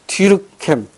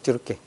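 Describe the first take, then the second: First: The name ends in an m sound, American-style. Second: The name ends in a nasal vowel, French-style. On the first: "이게 이제 미국식 발음인데" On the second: "프랑스식 발음을 하면 뒤르깽입니다"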